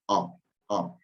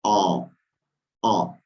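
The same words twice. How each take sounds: First: "O, O" clipped fast, as a native speaker says it; said quickly. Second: "O" held slowly with rounded lips and an A sound; slow A diaeresis. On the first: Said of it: "lo dice rapidito". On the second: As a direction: say it slowly so they hear it. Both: Shown as a demonstration.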